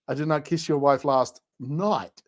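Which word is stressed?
night. The stress falls on the word night.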